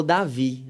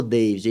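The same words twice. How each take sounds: First: DAVI said "dah-VEE", no final d; Portuguese Davi. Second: DAVID said the English way, "Deivid"; David as an English name; English-style David. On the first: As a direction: pronounce Davi the Brazilian way, stressed on the end. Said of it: "ele falou Davi". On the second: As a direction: pronounce David as "DAY-vid", with a final d sound. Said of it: "ele não falou David". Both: Shown as a demonstration.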